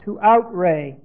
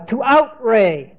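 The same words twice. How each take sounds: First: Said in the usual way. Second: Outray drawn out slowly and deliberately. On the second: Shown as a demonstration. Teacher giving the new word outray, slow and deliberate. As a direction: lay the word out slowly for the class.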